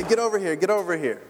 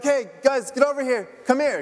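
First: A light, barely raised call; mild mock yell. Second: Raised, higher call across the room; mock yell. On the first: Pastor imitating yelling at his son from afar, mild mock yell. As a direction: toss off the call without real force. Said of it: "yell at Nathan from a distance and say". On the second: Pastor calling his sons from across the stage, mock yell. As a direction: call the kids over, half-shouting. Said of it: "yell to them and be like".

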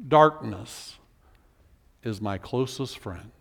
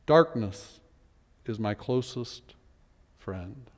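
First: "Darkness" low, then "is my closest friend" sinking much lower and softer; somber lament. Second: "Darkness" held, "is my closest friend" fading much lower and softer to almost nothing; fading lament. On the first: Preacher repeating the psalm's bleak last line, despairing. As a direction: let it fall away into despair. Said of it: "After all of that". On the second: Preacher repeating the bleak line a final time, fading. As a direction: let the last word die out. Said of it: "Not you, God". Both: Acted.

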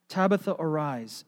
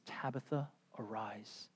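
First: Said in the usual way. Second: Soft, hushed call to rise; quiet command. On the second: Retold or imitated. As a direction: speak it gently over the body. Peter quietly raising Tabitha.

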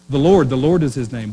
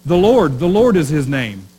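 First: Said in the usual way. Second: Louder proclamation, "Lord" ringing out; declaiming the verse. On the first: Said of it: "Is that kind of strange?". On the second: Retold or imitated. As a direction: read it out like a herald. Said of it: "Have you ever read this verse".

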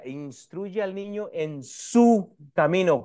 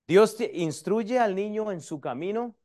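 First: SU held long, set apart before "camino"; slow down and lean hard on SU; énfasis en SU. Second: Said in the usual way. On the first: Shown as a demonstration. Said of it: "¿Cuál es el su?". (recalcar y alargar la palabra SU)

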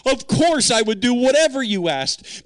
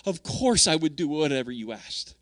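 First: Higher and louder, a gladly willing yes; eager yes. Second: Tender yes. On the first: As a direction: answer God with eager devotion. Eager willing reply to God. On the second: Repeats devoted answer to God. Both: Retold or imitated.

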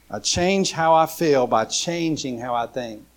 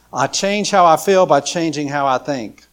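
First: Said in the usual way. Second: Louder, driving the point home; preacher announcing point three to the congregation, proclaimed loudly; emphatic proclamation. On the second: Shown as a demonstration. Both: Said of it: "repeats the key line".

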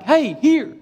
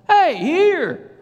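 First: First firm call, pitched high; raised voice calling the dog back. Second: Loud, high shout across a field; urgent, high-pitched yell to come back; shouting to dog. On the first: Calling his wandering dog. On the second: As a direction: holler for a far-off dog. Calling dog fifty yards away. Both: Retold or imitated.

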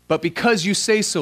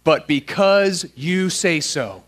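First: Said in the usual way. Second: Slow, measured words for a group to join; half-speed "because you say so", each word set apart; led recitation. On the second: Shown as a demonstration. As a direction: lead the room word by word through "because you say so". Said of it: "say out loud with me".

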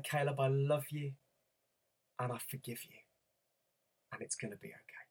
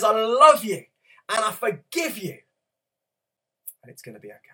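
First: Much softer, fading to a hush; tender reassurance. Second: Proclaimed promise. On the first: Retold or imitated. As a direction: murmur comfort to a crying child. Father comforting crying son tenderly. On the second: Acted. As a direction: proclaim God's love to the congregation. Preacher voicing God's message.

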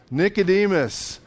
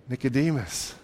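First: Said in the usual way. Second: Said low and soft, almost to himself; softened, lowered Nicodemus, savoring the name; hushed name. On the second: Shown as a demonstration. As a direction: let the name Nicodemus drop into a hush. Name repeated, hushed then plain.

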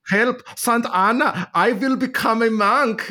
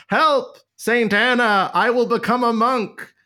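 First: Slow, high-pitched mock German cry; bad German accent. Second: High-pitched, mock-desperate cry; terrified cry for help. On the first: Martin Luther crying out to Saint Anna, bad German accent. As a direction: ham up a terrible German accent. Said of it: "what is a German accent like?". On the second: Martin Luther crying out in a thunderstorm, mock-terrified. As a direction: cry out a frightened vow, hammed up. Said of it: "he cried out".

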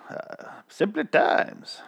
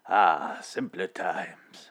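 First: Put-on slow, breathy whispered old reel voice; old timey voice. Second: Slow, soft nostalgic sigh; old timey voice. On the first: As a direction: whisper it like a vintage narrator. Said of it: "almost slipped into the opening narration voice". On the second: Pretend. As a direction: linger on it like an old reel. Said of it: "old timey voice".

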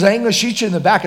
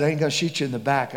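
First: Higher, louder and fast; louder insistent refusal. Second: Said in the usual way. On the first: Retold or imitated. Robber insisting to the preacher, rushed louder refusal. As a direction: push the refusal out hard.

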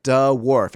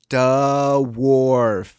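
First: "Duh, wharf." split into two sounds, duh then wharf, louder and playful; mock the kid's "Duh, wharf."; silly duh wharf. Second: "Duh, wharf." in a lightly voiced little-kid tone, higher and louder, duh then a falling wharf; child's duh wharf. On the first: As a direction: play along with a giggly "Duh, wharf.". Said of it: "I'd be like". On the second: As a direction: imitate a five-year-old splitting "Duh, wharf.". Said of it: "he'd be like".

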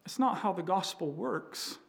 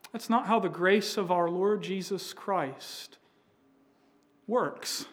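First: Not leaned on, voicing Paul; stress on not. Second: How leaned on, voicing Paul; stress on how. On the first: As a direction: press the word not to correct them. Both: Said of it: "Paul's saying".

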